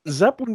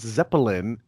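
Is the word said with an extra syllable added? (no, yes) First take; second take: no; yes. First: The word has its usual number of syllables. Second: The word has an extra syllable added.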